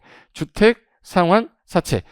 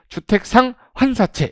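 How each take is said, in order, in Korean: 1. 상환과 사채 사이에 쉼이 있어요. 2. 상환과 사채는 쉬지 않고 붙여서 읽어요. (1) "이음절로 된 세 단어예요" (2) "이걸 또 잘못 읽으면 주택 상환사채 이렇게 하면 안 돼"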